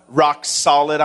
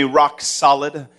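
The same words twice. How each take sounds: First: Said in the usual way. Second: Rock solid, drawn out slow for the crowd; slow call to repeat. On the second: Shown as a demonstration. Pastor leading the crowd in a slow call, drawn out. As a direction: lead the congregation slowly. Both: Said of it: "say with me".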